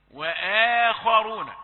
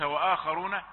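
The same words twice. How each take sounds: First: وآخرون slow and loud, light hamza; correct recitation. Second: وآخرون with heavy hamza, rising; mock the error in وآخرون; wrong pronunciation. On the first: Teacher models correct form before the wrong one. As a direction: proclaim وآخرون slowly. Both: Shown as a demonstration. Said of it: "وليس وآخرون".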